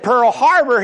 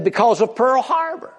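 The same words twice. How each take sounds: First: Higher, louder puzzled echo of "Pearl Harbor"; baffled repeat. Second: Higher, matter-of-fact retort; a hammed-up offhand answer. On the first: Acted. Joke, Chinese man baffled.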